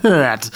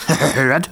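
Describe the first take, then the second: First: Teasing "hört" dropping to a falling finish; mocking jeer. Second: Teasing "Hört," with a rising lilt; mocking jeer. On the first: Comrades tease the grumbler with a mocking, falling jeer. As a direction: land "hört" like the heckle's punchline. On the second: Comrades tease the grumbler with a mocking jeer. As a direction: toss out "Hört," like a smirking heckle. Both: A narrator's reading. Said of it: "feixten seine Kameraden".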